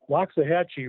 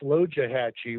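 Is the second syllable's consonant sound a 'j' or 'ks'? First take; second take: ks; j. First: The second syllable has a 'ks' sound. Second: The second syllable has a 'j' sound. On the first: The speaker calls it wrong. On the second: The speaker calls it right.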